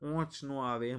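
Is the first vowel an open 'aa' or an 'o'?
o. The first word has a rounded, nasal 'o' vowel. This is how people in north Gujarat say it. "એ લોકોની આ જાય તો ઓંચ ન આવે એમ બોલે"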